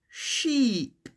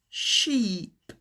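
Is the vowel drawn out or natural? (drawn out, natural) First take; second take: drawn out; drawn out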